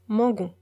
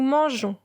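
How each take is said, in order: First: The g sounds hard, like in go. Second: The g sounds soft, like a j. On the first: The speaker calls it wrong. "Sinon, on prononce mangon" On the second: The speaker calls it right. "On ajoute le e pour prononcer j et non g"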